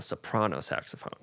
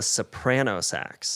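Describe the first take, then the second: First: "soprano" as so-PRAH-no, before "saxophone". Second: "soprano" as so-PRAN-oh, before "sax"; soprano with short A. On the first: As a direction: say "soprano" with an open AH. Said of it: "you would never call it a soprano saxophone". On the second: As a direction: say "soprano" with the A of "pan". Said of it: "she would call it a soprano sax". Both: Retold or imitated.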